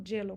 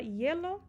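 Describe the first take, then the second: First: "gelo" opened with a hard dj sound; "gelo" with a consonant y at the start; hielo said with Y. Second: "hielo" opened with a vowel glide. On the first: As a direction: say "gelo" as DYEH-lo, like a Spanish Y. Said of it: "como se tivesse escrito com Y". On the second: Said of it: "tem gente que fala hielo". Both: Shown as a demonstration.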